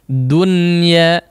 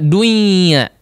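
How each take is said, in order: First: The n sound is pronounced clearly. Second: The n sound merges into the next sound. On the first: The speaker calls it right. "maka hukumnya diizharkan" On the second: The speaker calls it wrong. "Tidak dibaca dunya"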